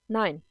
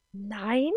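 First: NEIN as a short, louder falling statement; firm statement. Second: NEIN rising as a question; questioning echo. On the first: Matakela refuses Eva's plea, "Nein" firmly falling. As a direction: say "Nein" with a decisive drop at the end. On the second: Eva questions the refusal, "Nein" rising in disbelief. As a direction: echo "Nein" back, pitch climbing at the end. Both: A narrator's reading.

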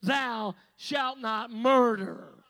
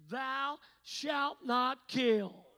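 First: "Thou shalt not murder" slow, louder, weight on "murder"; stress on murder. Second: Slow, weighty scripture reading; slow solemn quote. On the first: Preacher corrects the commandment, stressing "murder" slowly. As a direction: land hard on "murder", slow. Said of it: "what it means is". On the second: Preacher quotes the commandment slowly and solemnly. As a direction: lay out each word slowly. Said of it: "right there in the commandments". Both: Shown as a demonstration.

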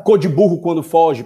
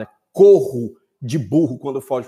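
First: "cor de burro" said as the common mistaken version; "cor de burro quando foge" with plain "cor"; wrong saying. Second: "corro" stressed as the corrected word; "corro de burro quando foge" with "corro" emphasized; correct saying. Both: Shown as a demonstration. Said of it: "Não é cor de burro quando foge o ditado".

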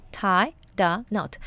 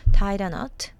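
First: Tie, the, knot, slowly separated; word by word. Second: Said in the usual way. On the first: Shown as a demonstration. Teacher explaining the idiom's words, slow separated tie the knot. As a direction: break tie the knot into three slow pieces.

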